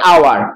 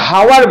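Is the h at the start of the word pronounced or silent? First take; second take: silent; pronounced. First: The word starts with a vowel sound. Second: The word starts with an h sound. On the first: The speaker calls it right. "আমরা বলি আওয়ার" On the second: The speaker calls it wrong. "আমরা হাওয়ার বলি না"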